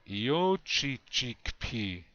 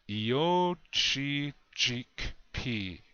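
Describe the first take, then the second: First: The word is said more quickly. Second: The word is said slowly.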